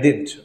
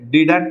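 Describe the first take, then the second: First: The word is squeezed into one syllable. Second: The word is said with two full syllables. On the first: The speaker calls it right. "పలికేటప్పుడు ఇలా పలకాలని" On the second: The speaker calls it wrong. "డిడంట్ అనకూడదు"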